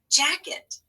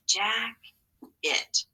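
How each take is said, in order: First: Jacket said as one smooth word; Jacket, natural schwa in the second syllable; whole word. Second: Jack-it, split into two clear beats; syllable by syllable. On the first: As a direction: blend Jacket with a light schwa ending. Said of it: "But that's not an I". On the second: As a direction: say Jack-it with a full I in the second part. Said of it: "That's what happens sometimes in English". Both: Shown as a demonstration.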